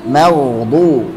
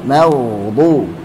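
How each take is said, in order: The two takes are said the same way.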